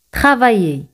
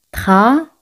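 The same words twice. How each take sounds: First: Said in the usual way. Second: "Tra-va-ye" in three separate syllables, pausing between each. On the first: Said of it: "Tra-va-ye". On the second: Shown as a demonstration. Teacher breaks the word down for learners, "Tra-va-ye" syllable by syllable. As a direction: break up "Tra-va-ye", with a Y sound starting "ye". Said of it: "se pronuncian como Y".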